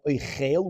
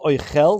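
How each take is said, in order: First: The stress is on the second syllable. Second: The stress is on the first syllable. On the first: It is the verb meaning eating. "not oichel, which means to eat" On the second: It is the noun meaning food. "over here it has a segel"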